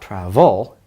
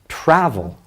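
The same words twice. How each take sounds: First: The stress is on the second syllable. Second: The stress is on the first syllable. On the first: The speaker calls it wrong. "it's not travel" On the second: The speaker calls it right. "The emphasis is on the first syllable"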